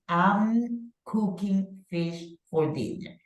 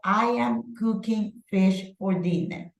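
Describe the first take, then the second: First: I am is contracted into one syllable. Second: I am is said as two full words.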